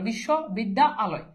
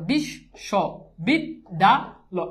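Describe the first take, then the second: First: The word is broken into three separate chunks. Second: The word is broken into five separate chunks. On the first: "কেউ যদি এভাবে উচ্চারণ করে" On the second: "একটা দাগ একটা অক্ষর"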